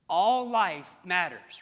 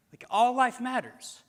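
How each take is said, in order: First: "All" drawn out, slow and loud; stress on ALL. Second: "life" lifted higher and louder; stress on LIFE. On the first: Preacher to congregation, slow weighty "All". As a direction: lean hard on "All", every word slow. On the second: Preacher repeating to congregation, "life" raised and louder. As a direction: punch "life" up high, a bit slowed. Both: Shown as a demonstration.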